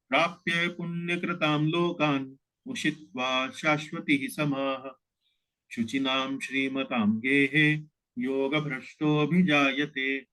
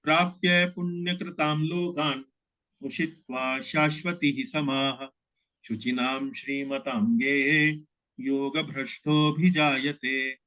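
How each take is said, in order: First: Sung, recite two quarters in one continuous breath; sung, flowing recitation. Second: Slow line by line recitation. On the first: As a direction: chant the shloka smoothly, half-verse by half-verse. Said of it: "इस प्रकार इसका उच्चारण किया जाएगा". (sung, प्रवाह में, आधा श्लोक एक साँस में) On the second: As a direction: recite each quarter slowly with pauses between. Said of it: "इसको उच्चारण इस तरह से किया जाएगा". (धीमा, एक-एक चरण रुककर पाठ) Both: Shown as a demonstration.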